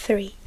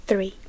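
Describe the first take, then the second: No difference in how they are said.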